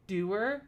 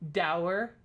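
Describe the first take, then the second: First: The word does not rhyme with sour. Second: The word rhymes with sour. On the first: "I've never heard it pronounced doer before" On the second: "I've only ever thought it was pronounced dower. Like sour"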